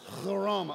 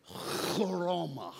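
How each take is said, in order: First: Chloroma with a spitting throaty ch; throaty spit take. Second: Chloroma with a harsh throaty ch, slowly; throat-clearing Greek word. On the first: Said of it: "you have to clear your throat". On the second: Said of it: "You kinda say it like this". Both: Shown as a demonstration.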